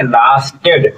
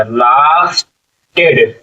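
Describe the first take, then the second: First: Said in the usual way. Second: lasted with a long held ला, pause before टेड; slow sounding-out. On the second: Shown as a demonstration. Teacher showing the long vowel in lasted, drawn out slowly. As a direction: stretch lasted out in two slow parts. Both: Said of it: "आ की मात्रा".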